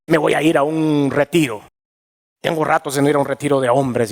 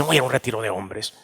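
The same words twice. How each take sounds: First: Said in the usual way. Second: Muttered repeat. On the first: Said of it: "first take before repeat". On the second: Retold or imitated. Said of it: "repeated quieter, faster".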